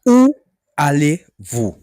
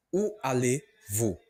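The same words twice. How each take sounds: First: Higher, louder, slow Où allez-vous; model question. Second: Said in the usual way. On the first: Shown as a demonstration. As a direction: lift Où allez-vous clearly. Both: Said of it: "how you ask the question in French".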